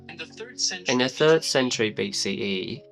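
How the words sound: It is spoken in a British accent. "render this sentence into a British accent"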